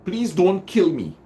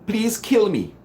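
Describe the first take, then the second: First: High pleading; begging. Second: "kill" hit high and hard; command heard. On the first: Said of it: "You are begging". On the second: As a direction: punch "kill" like an order. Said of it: "Take out the don't". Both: Shown as a demonstration.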